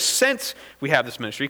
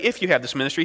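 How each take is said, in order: First: "Since" leaned on as the correct word; stress on "Since". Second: "If" leaned on as the rejected word; stress on "If". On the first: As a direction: put the contrast on "Since". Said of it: "He says". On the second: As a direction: put the contrast on "If". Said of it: "He doesn't say". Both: Shown as a demonstration.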